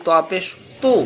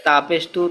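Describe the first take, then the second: First: "তু" with a heavy, thick t. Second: "তু" with a light, thin t. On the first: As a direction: say "ত পেশ তু" with a full, emphatic t. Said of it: "মোটা হবে". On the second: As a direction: say "তা পেশ তু" with a plain thin t, tongue light. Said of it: "আর এর পাতলা". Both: Shown as a demonstration.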